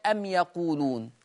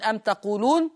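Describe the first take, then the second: First: "أم يقولون" as am yaquluna, y starting the verb; read with ya. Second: "أم تقولون" as am taquluna, t starting the verb; read with ta. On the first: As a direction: clear y in "يقولون". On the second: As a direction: clear t in "تقولون". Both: Shown as a demonstration. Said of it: "يقرأ بالياء".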